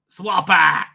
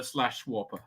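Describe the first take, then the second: First: "Swapper!" called out loud; playful exclamation. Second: Said in the usual way. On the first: Real, not acted. Streamer repeating site name, "Swapper!" loudly exclaimed. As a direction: punch out "Swapper!" as a comic cry.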